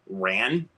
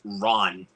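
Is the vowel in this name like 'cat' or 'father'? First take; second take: cat; father. First: The vowel sounds like the one in 'cat'. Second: The vowel sounds like the one in 'father'. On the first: The speaker calls it wrong. "as it may look on the spine" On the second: The speaker calls it right. "it's actually pronounced Ron"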